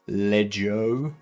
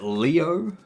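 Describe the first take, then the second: First: The name is said with French pronunciation. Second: The name is said with English pronunciation. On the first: "if you're French?" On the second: "Is it Leo?"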